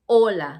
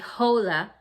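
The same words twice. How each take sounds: First: The word starts directly with a vowel sound. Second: The word starts with an audible H sound. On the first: The speaker calls it right. "you say hola, like the H is not there" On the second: The speaker calls it wrong. "the H in Spanish is silent, so you don't say hola"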